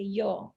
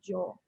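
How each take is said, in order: First: The word begins with a y sound. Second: The word begins with a j sound. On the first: This is how most people say it. "usually people say yo" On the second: This is how it is said in Paraguay. "in Paraguay we say more like yo, like more like a J"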